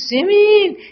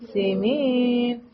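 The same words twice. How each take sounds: First: The name is called forcefully and angrily. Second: The name is called in a pleading, helpless way. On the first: The caller is upset and demanding. "با قدرت میخواست صدا کنه عصبانی" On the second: The caller is stuck and needs help. "یه جاهایی که کارش گیر کرده باشه میگه"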